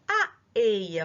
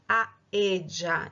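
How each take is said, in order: First: It is said with a standard Spanish accent. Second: It is said with an Argentine Spanish accent.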